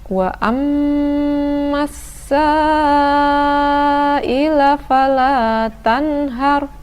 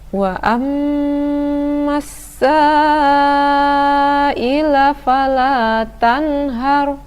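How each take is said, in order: The two takes are said the same way.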